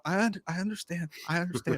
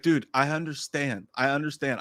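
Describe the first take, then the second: First: Soft, raised, pleading voice; small, careful, repeated reassurance; meek placating. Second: Said in the usual way. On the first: Shown as a demonstration. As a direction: show how to appease someone who is yelling. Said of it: "I, I did this". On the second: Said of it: "I literally had to be like".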